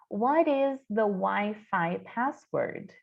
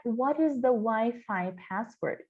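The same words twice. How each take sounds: First: Whispered, slow, T in "What" softened; whispered demo. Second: Slow, clear English question; slow careful model line. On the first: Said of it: "esse T ele fica suavizado". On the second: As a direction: say it slowly for the class. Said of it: "que é". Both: Shown as a demonstration.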